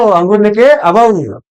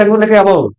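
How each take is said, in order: First: Teacher slowly repeating the parent's promise so the mnemonic sticks; slow, drawn-out repeat. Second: Said in the usual way. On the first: Retold or imitated. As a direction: say "अंगूर लेके आओ" very slowly, stretching each word. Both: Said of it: "तो बोले कि बेटा मत रो".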